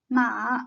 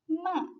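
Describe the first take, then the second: First: The pitch dips low then rises again. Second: The pitch falls sharply from high to low. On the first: It means horse. "The third tone is a dipping one" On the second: It means scold. "The fourth tone is a lowering tone"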